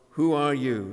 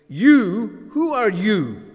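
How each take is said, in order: First: Said in the usual way. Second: "You" thrown out high and loud, then "who are you" pressing on the you; a pointed, accusing "You, who are you?"; stress on YOU. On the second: Shown as a demonstration. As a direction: put him right on the spot with "You". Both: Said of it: "Putting the emphasis on the you".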